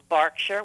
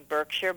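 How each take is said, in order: First: The word is pronounced the British way. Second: The word is pronounced the American way. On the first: The speaker calls it right. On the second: The speaker calls it wrong.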